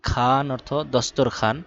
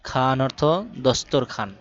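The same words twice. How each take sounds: The two takes are said the same way.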